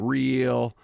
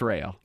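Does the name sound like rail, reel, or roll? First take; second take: reel; rail. First: The vowel sounds like the one in reel. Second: The vowel sounds like the one in rail. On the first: The speaker calls it wrong. "pronouncing it all kinds of different ways" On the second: The speaker calls it right. "But it's rail"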